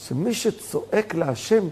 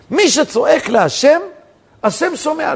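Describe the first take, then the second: First: Slow, softer "שמי שצועק להשם"; measured statement. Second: Slow, loud, higher "מי שצועק להשם"; emphatic proclamation. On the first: Preacher explaining the commentary's principle, slow and soft. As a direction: hold it back, softly and slowly. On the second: Preacher driving the principle home, loud slow proclamation. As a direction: proclaim it slowly with raised voice. Same principle repeated forcefully. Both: Real, not acted.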